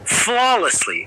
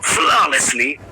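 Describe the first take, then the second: First: It is said in the reader's own plain voice. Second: It is said in an imitated, put-on accent.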